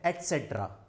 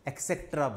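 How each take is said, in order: First: It begins with an 'et' sound. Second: It begins with an 'eks' sound. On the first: The speaker calls it right. "इसका सही pronunciation है एटसेट्रा" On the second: The speaker calls it wrong. "सब के सब इसको एक्सेट्रा बोलते हैं"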